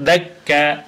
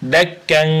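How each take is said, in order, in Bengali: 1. শব্দটি দীর্ঘ আ স্বরধ্বনি দিয়ে শেষ হয়। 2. শব্দটি নাসিক্য ন ধ্বনি দিয়ে শেষ হয়। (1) "কা বললাম" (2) "কান না বলে"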